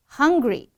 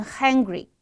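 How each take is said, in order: First: "hungry" with a short uh, pitched up; short "hung" vowel in "hungry". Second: "hungry" said as "hangry"; flattened a, as in "cat", in "hungry"; wrong vowel. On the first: Teacher giving the correct example, clear uh. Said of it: "One is a，one is a，as in". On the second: Teacher warning students, a in place of uh. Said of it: "千万不要说成". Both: Shown as a demonstration.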